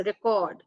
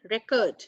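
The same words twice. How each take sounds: First: "record" with stress on the second syllable, ri-KORD; verb record. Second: "record" with stress on the first syllable, REK-ord; noun record. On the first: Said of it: "So it's record". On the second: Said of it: "the pronunciation for this will be". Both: Shown as a demonstration.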